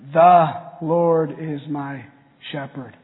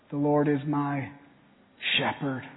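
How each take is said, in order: First: The word "The" is stressed. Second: The word "shepherd" is stressed.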